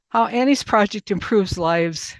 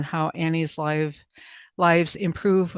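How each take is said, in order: First: "how Annie's Project improves lives" said louder and higher, with weight on "Annie's"; firm correction, stressing "Annie's Project"; corrected phrase stressed. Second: Said in the usual way. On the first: Real, not acted.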